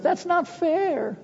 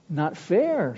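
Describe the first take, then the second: First: Very high, slow mock howl of protest. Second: Said in the usual way. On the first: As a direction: wail it like outraged students. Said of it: "they howled in protest". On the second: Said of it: "Sproul replied".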